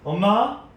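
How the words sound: The call sounds shaky and unsure. The child is starting to feel afraid. "조금 떨리는 목소리로 다시 불러요"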